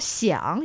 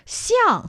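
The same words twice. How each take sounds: First: Xiang in the tone meaning "to think". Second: Xiang high, then falling, meaning "similar". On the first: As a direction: say xiang as the Mandarin word for thinking. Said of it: "you're talking about thinking". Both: Shown as a demonstration.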